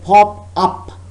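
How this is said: A pause separates the words; full ah vowel. "if you take pause and say pop up, then you have to use the sound ah"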